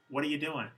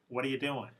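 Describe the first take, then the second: The two takes are said the same way.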